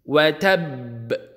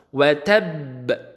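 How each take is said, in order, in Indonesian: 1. Konsonan akhir dilepas dengan pantulan yang kuat. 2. Konsonan akhir dilepas dengan pantulan yang kuat.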